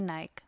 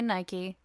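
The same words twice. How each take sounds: First: Nike said as one syllable, rhyming with bike; British pronunciation. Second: Nike said as two syllables, NY-kee; American pronunciation. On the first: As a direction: say Nike with a silent e. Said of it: "British people, you say Nike". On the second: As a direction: say Nike with an -ee ending. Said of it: "Americans, we say Nike". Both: Shown as a demonstration.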